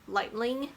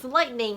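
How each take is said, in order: First: The word is said with an L before -ing. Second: The word is said with an N before -ing. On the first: It is confused with the book title. The speaker calls it wrong. "start pronouncing lightning as like lightning" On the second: It names the weather flash. The speaker calls it right. "no, no, no, it's lightning"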